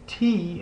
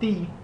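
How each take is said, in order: First: The t is made with the tongue on the ridge. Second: The t is made with the tongue on the teeth. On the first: "T in English" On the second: "ti in Spanish"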